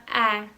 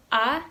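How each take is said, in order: First: "A" as a fronted "æ", as in cap. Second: "A" as a long back "ah"; long open A. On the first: Teacher contrasting two A sounds, front "ae". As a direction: say "A" flatter and forward, like "ae". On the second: Teacher contrasting two A sounds, long "ah". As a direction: hold "A" open, as "aah". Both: Shown as a demonstration. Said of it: "nanti bercabang lagi".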